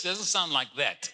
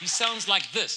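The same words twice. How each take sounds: First: "that" set against "this"; stress on THAT. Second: THIS stressed, raised pitch and louder. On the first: Preacher jokes God lacks the pastor's accent, stress on "that". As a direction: lean on "that" to dismiss it. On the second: Preacher jokes that God talks like her, stress on "this". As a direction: land emphatically on "this". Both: Shown as a demonstration. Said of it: "they tell me I have an accent".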